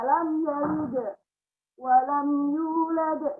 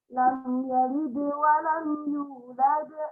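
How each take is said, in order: First: There is a pause after the bounced sound. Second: The bounced sound flows on with no pause. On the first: The speaker calls it wrong. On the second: The speaker calls it right. "Jadi dia cepat, tidak ada jeda, tidak ada sakta"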